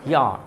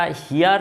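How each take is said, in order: First: হিয়ার said as "hia", falling; dropped final r. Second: হিয়ার with the r pronounced at the end; sounded final r. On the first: Teacher corrects the class's word, r-less হিয়ার. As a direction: leave the r off হিয়ার. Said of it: "এটা হিয়ার". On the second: Teacher quotes how we say it, sounded r in হিয়ার. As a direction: finish হিয়ার on a clear r. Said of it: "আমরা হিয়ার শব্দটা যে বলি". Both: Shown as a demonstration.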